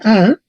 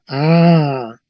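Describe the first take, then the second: First: The vowel is short. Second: The vowel is long.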